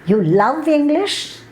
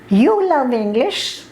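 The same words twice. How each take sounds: First: The stress falls on the word love. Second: The stress falls on the word you. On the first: The listener was expected to hate it instead. "I never thought you would love English. I thought you would only hate English" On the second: The listener seems an unlikely person to love it. "it means you are such an idiot. How can you love English?"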